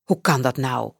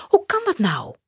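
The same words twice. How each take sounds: First: Lower, puzzled man's voice; a lower, kindly headmaster asking; principal's question. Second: Put-on high, bewildered boy's question; startled boy. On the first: Acted. Headmaster Janos asks Max, in a lower puzzled voice. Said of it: "vraagt meester Janos". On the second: Max realises he is late, startled and high. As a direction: sound caught off guard, much higher.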